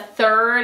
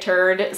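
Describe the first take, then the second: First: It begins with a th sound. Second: It begins with a t sound.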